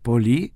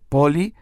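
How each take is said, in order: First: The stress is on the last syllable. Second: The stress is on the first syllable. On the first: The word means much. The speaker calls it right. "acento en la I" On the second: The word means city. The speaker calls it wrong. "si nosotros ponemos mal el πολύ, la acentuación, decimos πολύ"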